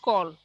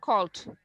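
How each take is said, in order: First: The word ends without its final consonant sound. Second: The word ends with a clear final consonant. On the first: The speaker calls it wrong. "stop saying call it or just call" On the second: The speaker calls it right. "You have to insist on the last sound"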